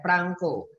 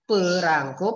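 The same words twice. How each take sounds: First: The p goes straight into the r. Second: A vowel sounds between the p and r. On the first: "langsung r" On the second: "pakai e habis pe"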